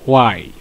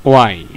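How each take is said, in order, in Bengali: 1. শব্দটি w ধ্বনি দিয়ে শুরু হয়। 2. শব্দটি w ধ্বনি দিয়ে শুরু হয়।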